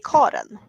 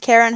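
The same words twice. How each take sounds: First: The name has a Swedish pronunciation. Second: The name has an English pronunciation. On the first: "in Sweden we say Karen" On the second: "some unwanted connotations these days"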